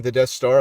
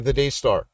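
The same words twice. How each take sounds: First: "Death Star", the word ending in th; "Death Star" shown. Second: "Day Star", open ay before Star; "Day Star" shown. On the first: Host denying the misheard name, saying "Death Star" with th. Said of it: "I am not saying the Death Star". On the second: Host correcting the misheard name, saying "Day Star" without th. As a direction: say "Day" with a long ay and no th. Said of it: "I'm saying the Day Star". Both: Shown as a demonstration.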